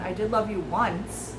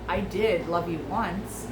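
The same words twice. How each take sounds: First: The word once carries the main stress. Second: The word did carries the main stress. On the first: It happened only one time. "as in we slept together one time" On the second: They truly were in love before. "If you focus on did"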